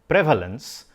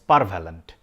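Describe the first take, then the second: First: The word begins with a clear 'pre' sound. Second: The word begins with a jumbled 'par' sound. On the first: "the word prevalence" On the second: "I pronounce it as parvalent, which is wrong"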